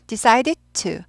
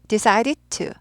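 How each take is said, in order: No difference in how they are said.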